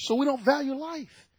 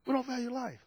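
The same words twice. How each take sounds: First: Said in the usual way. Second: Softer, sinking echo of "We don't value life"; hushed sorrowful echo of "We don't value life"; quiet repeat. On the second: Real, not acted. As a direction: repeat the line quietly to let it land. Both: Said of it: "repeated quietly".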